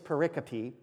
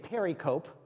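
First: The word ends sounding like 'copy'. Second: The word ends sounding like 'cope'. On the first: The speaker calls it right. "but it is pericope" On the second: The speaker calls it wrong. "I may accidentally say pericope, because that's how it's spelled"

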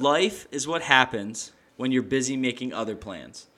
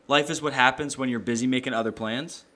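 First: It is said more slowly. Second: It is said at a normal pace.

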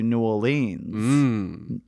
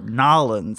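First: The name is said in full, all syllables. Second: The name is squeezed into two short syllables.

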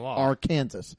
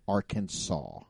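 First: The final S is pronounced. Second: The final S is silent. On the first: The speaker calls it wrong. "you cannot say Arkansas" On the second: The speaker calls it right. "It has to be Arkansas"

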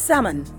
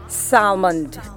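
First: No L sound is pronounced in the word. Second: An L sound is pronounced in the word. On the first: The speaker calls it right. "here's how it's pronounced" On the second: The speaker calls it wrong. "not salmond"

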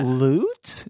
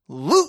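First: The pitch rises at the end like a question. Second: The pitch falls at the end like a statement. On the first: The title leaves it uncertain whether there is treasure. The speaker calls it right. "It should be loot with a question mark" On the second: The title states outright that there is treasure. The speaker calls it wrong. "Not loot"

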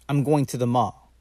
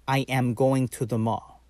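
First: I am is contracted into one syllable. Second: I am is said as two full words. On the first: "most of the times, they are going to say" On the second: "instead of saying"

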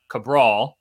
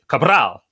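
First: The R is said plain, without a roll. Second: The R is rolled. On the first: The speaker calls it wrong. "not Cabral" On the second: The speaker calls it right. "but it is Cabral"

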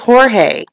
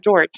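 First: The name is said with a Spanish pronunciation. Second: The name is said with an English pronunciation. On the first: This is the person's actual name. The speaker calls it right. "But his name is Jorge" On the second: This is the anglicized version people use. The speaker calls it wrong. "we just call him George"

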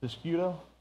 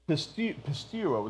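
First: The middle consonants sound like 'sk'. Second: The middle consonants sound like 'st'. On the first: The speaker calls it wrong. "I'm going to mess this up" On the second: The speaker calls it right. "that's right, there's no C in it"

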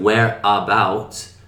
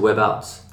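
First: The vowel at the start of 'about' is fully pronounced. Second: The vowel at the start of 'about' is reduced. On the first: "Instead of where about" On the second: "people say whereabouts"

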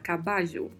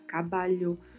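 First: The double L sounds like Portuguese j. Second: The double L sounds like Portuguese lh. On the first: "um som de J" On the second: "um som de LH"

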